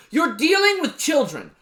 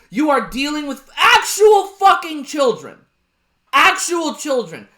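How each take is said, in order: First: Raised, exasperated. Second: "actual" hit hard, loud, exasperated; exasperated yell landing on "actual"; stress on actual. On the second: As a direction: lean on the word "actual" in an angry shout. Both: Real, not acted. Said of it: "That's what I realized".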